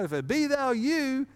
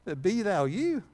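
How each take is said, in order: First: Higher, a hint of eager Peter; mock eager Peter. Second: Said in the usual way. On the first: Preacher acts out Peter calling to Jesus, lightly voiced. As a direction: lean in, lightly playing bold Peter. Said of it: "bid me to what?". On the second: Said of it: "if it what?".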